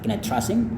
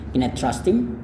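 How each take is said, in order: First: The t at the end of 'trust' is dropped. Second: The h at the start of 'him' is dropped. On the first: "T ini juga kadang tidak dilafalkan, nggak menjadi masalah" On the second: "Atau bahkan H ini kadang tidak dilafalkan"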